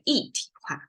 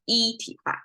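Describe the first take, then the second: First: 一 takes a changed tone before 体. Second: 一 keeps the tone it has alone. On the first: "I would say 一体化" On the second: "instead of 一体化"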